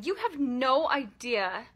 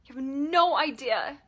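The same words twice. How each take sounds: First: Slow, pressing the words out with building anger; slow seething. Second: Louder, leaning hard on no; louder accusing yell. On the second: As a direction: let the anger break through. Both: Pretend. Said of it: "and yelling".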